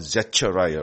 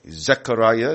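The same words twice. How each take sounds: First: The middle consonant is a ch sound. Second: The middle consonant is a k sound. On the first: The speaker calls it wrong. "not Zechariah" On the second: The speaker calls it right. "it's always K, like Zechariah"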